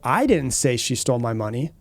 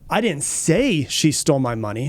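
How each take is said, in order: First: The stress falls on the word "I". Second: The stress falls on the word "say". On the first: Someone else said it. "that shows, you know, someone else said it. I didn't say it" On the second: It was hinted rather than said outright. "You know, I might have hinted"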